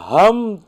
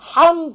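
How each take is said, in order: First: It starts with a light, plain h sound. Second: It starts with a tense, throaty h sound. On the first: The word means torn cloth. The speaker calls it wrong. "হামদ মানে হলো ছেঁড়া পাড়া কাপড়" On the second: The word means all praise. The speaker calls it right. "হামদ মানে সমস্ত প্রশংসা"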